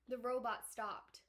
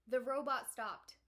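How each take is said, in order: The two takes are said the same way.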